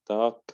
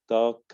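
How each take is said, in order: No difference in how they are said.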